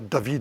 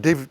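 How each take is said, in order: First: The name has a German pronunciation. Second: The name has an English pronunciation. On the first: "I'm going to stop pronouncing the given names uh, with their German pronunciation" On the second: "So his name in English would, of course, be David"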